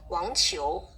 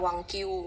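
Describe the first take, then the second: First: The second syllable starts with a ch-like sound. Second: The second syllable starts with a k sound. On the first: The speaker calls it right. "Kalau ada Q ini kayak C H bacanya" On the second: The speaker calls it wrong. "Ini nggak dibaca K ya, nggak dibaca Q. Ya, jadi bukan Wang Q gitu kan"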